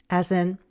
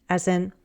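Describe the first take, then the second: No difference in how they are said.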